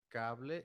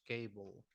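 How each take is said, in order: First: "cable" said the Spanish way, KAH-bleh; "cable" with open a, ending in a clear e; Spanish pronunciation. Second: "cable" said the English way, KAY-bul; "cable" with a long a and a final bul; English pronunciation. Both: Shown as a demonstration. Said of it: "The pronunciation is different".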